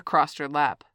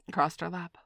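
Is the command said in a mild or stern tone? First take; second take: stern; mild. First: It is said in a harsh, commanding tone. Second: It is said in a mild, ordinary tone.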